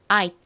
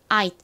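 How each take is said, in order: First: It is quick, with the final T barely heard. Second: It is quick, with the final T barely heard.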